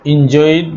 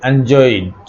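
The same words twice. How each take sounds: First: "এনজয়েড" with an opening "in" sound; first-vowel variant. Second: "এনজয়েড" with an opening "an" sound; alternative first vowel. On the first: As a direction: say "এনজয়েড" as in-JOYD. ("এনজয়েড"-এর শুরুতে ই ধ্বনি) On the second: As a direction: say "এনজয়েড" as an-JOYD. ("এনজয়েড"-এর শুরুতে অ্যা ধ্বনি) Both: Shown as a demonstration. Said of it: "এনজয়েড বা এনজয়েড".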